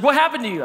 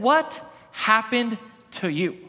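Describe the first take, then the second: First: Higher and a bit louder, pressing on happened; insistent repeat. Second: Slow, drawn-out, stressing what; slow shocked question. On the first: Wife repeating herself to her sunburned husband, higher insistent question. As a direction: push the question harder. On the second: Wife staring at her sunburned husband, slow stunned question. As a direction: let the shock stretch each word. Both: Retold or imitated.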